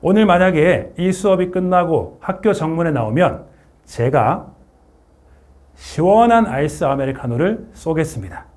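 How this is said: It is said with a pause in the middle.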